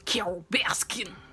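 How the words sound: It is said in a put-on impression voice. The speaker calls it right. "You have to say it in like a Joe Exotic voice"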